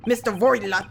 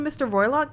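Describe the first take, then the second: First: Put-on "Broilot" with a rolled Russian r and heavy accent; Russian-accented name. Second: Said in the usual way. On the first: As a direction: say "Mister Broilot" like a Russian sailor. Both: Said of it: "how I said it correctly".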